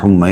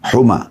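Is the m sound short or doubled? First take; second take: doubled; short. First: The m sound is doubled and held. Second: The m sound is short and single. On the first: The speaker calls it wrong. "Maaf tadi saya keliru baca humma" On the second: The speaker calls it right. "mim dibaca, eh, tanpa tasydid"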